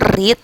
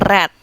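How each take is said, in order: First: It is said as the present-tense form. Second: It is said as the past-tense form. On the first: The action happens in the present. "Yang verb satu itu read" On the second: The action happened in the past. "verb dua-nya read"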